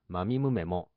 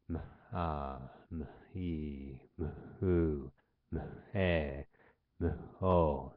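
First: Each m blends straight into its vowel. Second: Each m is held apart before its vowel. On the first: This is the Japanese way of saying it. "日本語の場合は" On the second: This is the English way of saying it. "英語の場合は、えー、あえてこのように聞いてみてください"

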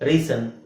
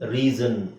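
First: The middle consonant is a hissing s sound. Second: The middle consonant is a buzzing z sound. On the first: The speaker calls it wrong. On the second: The speaker calls it right.

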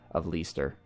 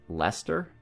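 First: The name is pronounced in a non-British way. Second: The name is pronounced the British way.

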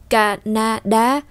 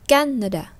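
First: All three syllables have the same force. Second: One syllable is stressed more than the others. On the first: The speaker calls it right. "đọc là Canada" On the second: The speaker calls it wrong. "Chúng ta không đọc là Canada, không đọc như thế"

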